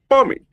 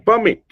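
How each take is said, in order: First: The stress is on the first syllable. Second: The stress is on the second syllable. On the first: It is a noun meaning an official permission. "So with a stress on the per, it's a noun" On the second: It is a verb meaning to allow. "if you shift the stress onto the second syllable"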